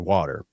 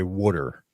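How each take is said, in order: First: It is said in the speaker's own accent. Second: It is said in a local Delco accent.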